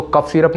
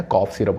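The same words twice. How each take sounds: First: कफ syrup with a short "uh", kuf syrup; wrong pronunciation. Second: कॉफ syrup with an open "aw", kawf syrup; correct pronunciation. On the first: Teacher correcting students, कफ syrup said the wrong way. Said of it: "कफ syrup नहीं होता है". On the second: Teacher correcting students, कॉफ syrup said the right way. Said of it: "कॉफ syrup होता है". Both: Shown as a demonstration.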